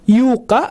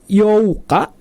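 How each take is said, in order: First: The vowel is said as a u sound. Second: The vowels o and u are said separately. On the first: "atau dibaca Yuka, bukan seperti itu" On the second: "Itu dibacanya bukan Youka"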